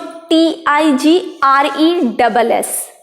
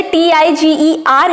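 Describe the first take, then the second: First: टीआईजीआरई डबल एस spelled letter by letter as T-I-G-R-E double S, slow and deliberate. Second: टीआईजीईआर spelled letter by letter as T-I-G-E-R, each letter said separately. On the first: Teacher spelling tigress slowly so students see the change. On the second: Teacher spelling tiger to the class one letter at a time. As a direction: spell out टीआईजीईआर slowly so the E before R is clear. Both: Shown as a demonstration. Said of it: "इसमें हमने क्या remove किया?".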